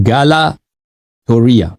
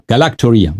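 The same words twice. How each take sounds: First: گالاکٹوریا drawn out very slowly, syllable by syllable; slow careful spelling-out. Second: Said in the usual way. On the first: Shown as a demonstration. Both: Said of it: "گالاکٹوریا کو کیا بولتے ہیں".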